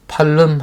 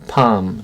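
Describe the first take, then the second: First: The L sound is pronounced in the word. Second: The L sound is left silent in the word. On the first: The speaker calls it wrong. "L이 묵음입니다. 소리가 나지 않아요. 팔름 하시면 안 돼요" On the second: The speaker calls it right. "palm 종려나무"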